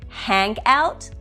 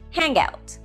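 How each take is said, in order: First: The two words are said separately. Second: The final ng runs into the next word.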